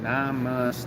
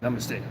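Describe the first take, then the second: First: The syllables are said separately. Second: The syllables run together in one breath. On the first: The speaker calls it wrong. "I never said it right. I was like" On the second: The speaker calls it right. "It's supposed to be as like one breath"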